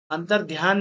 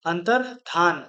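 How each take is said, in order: First: अंतर्ध्यान said with ध्या; the mistaken अंतर्ध्यान with ध्यान inside; wrong form. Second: अंतर्धान said with plain धा, no य; correct form. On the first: Teacher marks the wrong form अंतर्ध्यान. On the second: Teacher gives the correct अंतर्धान. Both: Shown as a demonstration. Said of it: "अंतर्ध्यान नहीं".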